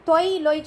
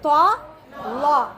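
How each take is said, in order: First: The letter names end in an 'oy' sound. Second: The letter names end in an 'aa' sound. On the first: The speaker calls it wrong. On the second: The speaker calls it right.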